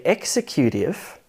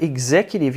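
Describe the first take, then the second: First: "executive" as EX-e-CUTE-ive; weight on EX and CUTE in "executive"; wrongly stressed "executive", like "execute"; misstressed syllable. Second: "executive" as ig-ZEC-utive; weak first syllable in "executive"; second-syllable stress. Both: Shown as a demonstration. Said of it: "if you misstress a syllable".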